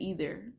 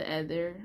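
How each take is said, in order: First: "ether" with a long ee at the start; alternative pronunciation of ether. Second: "ether" with a short e, as in feather; first pronunciation of ether. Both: Shown as a demonstration. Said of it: "or the ether".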